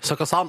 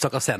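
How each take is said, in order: First: The last syllable has an 'a' vowel. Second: The last syllable has an 'e' vowel. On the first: The speaker calls it right. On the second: The speaker calls it wrong.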